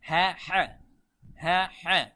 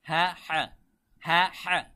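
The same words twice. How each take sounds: No difference in how they are said.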